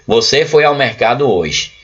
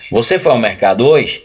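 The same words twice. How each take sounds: First: The pitch stays flat like a statement. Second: The pitch rises like a question. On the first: It does not sound like a question. The speaker calls it wrong. "eu não estou perguntando ela" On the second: It is heard as a real question. The speaker calls it right. "Eu preciso fazer uma entonação"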